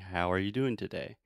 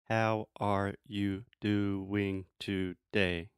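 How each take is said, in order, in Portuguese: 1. As sílabas são ditas juntas, com alguns sons reduzidos. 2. Cada sílaba é dita separadamente e de forma uniforme. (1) "the intonation goes up and down. I'm saying" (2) "you're saying each syllable separately and each syllable as a clear thought. That sounds ridiculous. It sounds like a robot"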